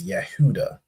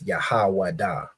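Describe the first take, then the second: First: The name is said without a 'wa' syllable. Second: The name is said with a 'wa' syllable. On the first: This is how others commonly say the name. The speaker calls it wrong. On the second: This is the form the speaker holds to be true. The speaker calls it right. "we of course know it's Yahawada"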